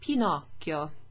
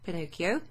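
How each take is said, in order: First: It is said with an Italian pronunciation. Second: It is said with an English pronunciation.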